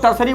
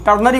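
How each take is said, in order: First: "टर्सरी" said the wrong way, with an s sound in the middle; "टर्सरी", the mispronunciation students often use; common wrong form. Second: "टर्नरी" said correctly, with an n sound in the middle; "टर्नरी", the right way, n not s; correct form. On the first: Teacher showing students the common mistake, "टर्सरी" with s. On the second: Teacher correcting students after the mistake, "टर्नरी" with n. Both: Shown as a demonstration. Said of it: "टर्सरी कहना गलत है".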